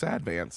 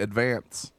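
First: It is said the way locals say it. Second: It is said the way outsiders say it. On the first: The speaker is from the area. The speaker calls it right. "It's Advance" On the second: The speaker is not from the area. The speaker calls it wrong. "if you're not from here, a lot of people say Advance"

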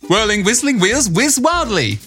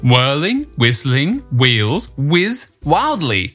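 First: The phrase is spoken at a fast pace. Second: The phrase is spoken at a slow pace. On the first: "Now let's say it really fast" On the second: "You have to say it slower"

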